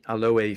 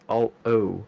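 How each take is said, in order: First: The final e is clearly sounded. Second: The final e is silent. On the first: "we do pronounce the e" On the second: "with an e not pronounced"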